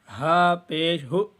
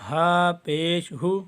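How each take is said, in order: The two takes are said the same way.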